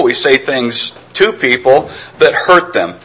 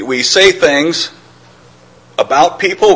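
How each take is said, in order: First: Slow, with "to" drawn out and stressed. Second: Slow, with "about" set off after a pause; pause, then lean on "about" in "about people"; stress on about. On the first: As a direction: lean hard on "to" in "to people". Contrasts to with about. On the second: Contrasts about with to. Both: Real, not acted.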